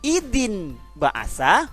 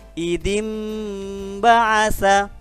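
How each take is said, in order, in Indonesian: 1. Terdengar bunyi n sebelum b. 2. Terdengar bunyi m sebelum b. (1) "tidak lagi idin ba'asa" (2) "ditukar, dibalik menjadi bunyi mim sukun"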